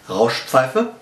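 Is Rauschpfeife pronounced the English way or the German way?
German. It is said with a German pronunciation. The speaker calls it right.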